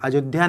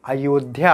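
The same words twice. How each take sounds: First: The middle consonant is a 'j' sound. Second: The middle consonant is a 'y' sound. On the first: The speaker calls it wrong. "अयोध्या बोल दिए तो अयोध्या नहीं होता" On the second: The speaker calls it right. "अयोध्या होता है"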